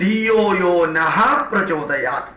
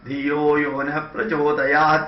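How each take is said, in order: First: The word na ends with a breathy h. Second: The word na ends without a breathy h. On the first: It means inspire us. The speaker calls it right. "ശരിക്കും" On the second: It means do not inspire. The speaker calls it wrong. "ആ ന എന്നുള്ളത് വളരെ ശാന്തമായിട്ട് പറഞ്ഞു"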